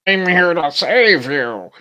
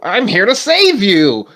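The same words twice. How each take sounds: First: It is said in a deeper voice. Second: It is said in a normal voice.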